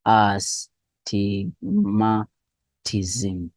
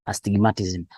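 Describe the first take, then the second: First: Very slow, syllables of "astigmatism" pulled apart. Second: Said in the usual way. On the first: Shown as a demonstration. Teacher breaks down a hard term.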